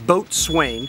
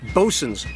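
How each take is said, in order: First: It is said as boat-swain, as spelled. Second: It is said as the short bosun. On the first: The speaker calls it wrong. "it's not boatswain" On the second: The speaker calls it right. "It is Bosun's Swamp"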